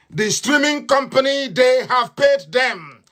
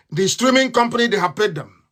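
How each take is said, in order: First: "paid" stressed and drawn out, much slower; indignant slow stress on "paid"; emphatic repeat. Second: Said in the usual way. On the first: Real, not acted. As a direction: lean on "paid" slowly and heavily. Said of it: "repeats with slow stress". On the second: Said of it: "first plain take".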